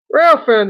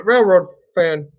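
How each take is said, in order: First: Loud, cheerful shout-out; loud greeting. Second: Slowly saying Railroad fan; slow correction. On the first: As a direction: call out the name brightly. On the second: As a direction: stretch out Railroad fan carefully. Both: Real, not acted.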